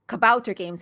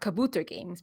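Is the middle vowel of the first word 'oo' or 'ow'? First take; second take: ow; oo. First: The middle vowel sounds like 'ow'. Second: The middle vowel sounds like 'oo'. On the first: The speaker calls it right. "is pronounced Kabouter Games" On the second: The speaker calls it wrong. "and not Kabooter Games"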